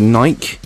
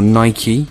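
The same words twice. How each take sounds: First: The name is said a non-American way. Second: The name is said the American way.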